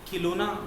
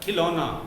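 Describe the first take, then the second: First: The first syllable has a long 'ee' vowel. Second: The first syllable has a short 'i' vowel. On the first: The speaker calls it wrong. "खिलौना गलत है" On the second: The speaker calls it right. "मैंने शुद्ध उच्चारण बताया था खिलौना"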